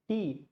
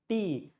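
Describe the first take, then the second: First: The word is said in a Tamil-style accent. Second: The word is said in a Tamil-style accent.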